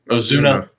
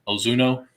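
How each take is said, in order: First: The name ends with an 'ah' vowel. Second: The name ends with an 'oh' vowel. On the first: The speaker calls it right. "it's an A" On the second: The speaker calls it wrong. "It's not an O"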